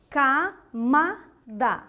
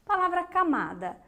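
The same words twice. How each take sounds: First: "Camada" slowly, as ca, ma, da; syllable by syllable. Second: Said in the usual way. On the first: Shown as a demonstration. Teacher asking for the strong syllable, "Camada" split slowly. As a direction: break "Camada" into three separate syllables. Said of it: "Ela também tem a sílaba forte".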